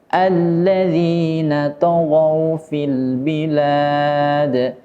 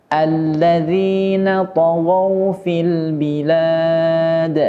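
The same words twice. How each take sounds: The two takes are said the same way.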